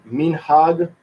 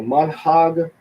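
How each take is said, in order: First: "minhag" with first vowel EE, MEEN-hahg; deliberate "minhag", long ee first syllable; Spanish-like pronunciation. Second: "manhag" with first vowel AH, MAHN-hahg; deliberate "manhag", open first syllable; Hebrew pronunciation. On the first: Teacher contrasting two forms, "minhag" pronounced meen-hahg. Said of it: "our minhag is more closer to a Spanish pronunciation". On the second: Teacher contrasting two forms, "manhag" pronounced mahn-hahg. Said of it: "we would say manhag". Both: Shown as a demonstration.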